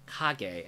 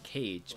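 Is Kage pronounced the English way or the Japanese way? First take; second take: Japanese; English. First: Kage is pronounced with Japanese sounds. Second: Kage is pronounced with English sounds. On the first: The speaker calls it right. "in Japanese characters, you would say Kage" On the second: The speaker calls it wrong. "instead of Kage"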